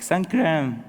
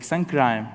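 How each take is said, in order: First: "Sun crime" said as sun cream, long ee; corrected sun cream. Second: "Sun crime" with the vowel of "time"; mispronounced sun cream. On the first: Volunteers finally understanding, "Sun crime" corrected to sun cream. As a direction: say "crime" as "cream", rhyming with team. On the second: Refugee asking volunteers for sunscreen, mispronounced as "Sun crime". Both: Retold or imitated. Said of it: "They were calling me sun crime".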